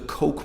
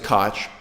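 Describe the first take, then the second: First: The name is said to sound like 'Coke'. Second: The name is said not sounding like 'Coke'. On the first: This is the family's own preferred pronunciation. "They prefer the pronunciation Coke" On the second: This is how most others with the name say it. "everyone else with the same last name ... pronounce it Koch"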